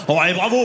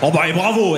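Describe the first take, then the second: First: Sarcastic "bravo" with a rising end; a lecturing, sarcastic tone; mock lecturing. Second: The employee's sarcastic "bravo"; mock lecturing. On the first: («bravo» ironique qui monte) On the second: («bravo» ironique, ton de leçon de morale) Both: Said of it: "elle commence à me faire la morale".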